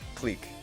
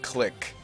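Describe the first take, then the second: First: The word has a long vowel, like 'peek'. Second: The word has a short vowel, like 'kick'. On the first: "Clique is actually a French word" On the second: "It's not click"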